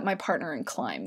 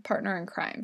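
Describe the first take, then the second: First: "climb" said with an L, a mistaken "partner in climb"; slip of the tongue. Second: "crime" said properly with an R, quieter; corrected phrase. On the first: Host garbles the phrase while describing her niece, saying "climb". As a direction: say "climb" instead of "crime" by mistake. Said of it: "Climb. Crime". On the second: Host fixes her slip about her niece, saying "crime" properly. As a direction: correct yourself with "crime" clearly. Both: Real, not acted.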